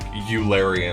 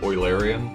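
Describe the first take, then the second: First: The word is pronounced in an altered way. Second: The word is pronounced in its usual way.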